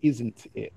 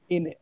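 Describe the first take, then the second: First: The full form is said with its t sound. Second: The t sound is dropped, giving two short syllables. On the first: "which is an abbreviation for isn't it" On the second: "he's saying in it, right? Which is short for"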